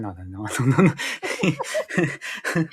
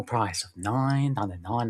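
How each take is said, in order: First: Slow, stretched nine ninety-nine; hammed-up infomercial price tag; drawn-out mock sales pitch. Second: Said in the usual way.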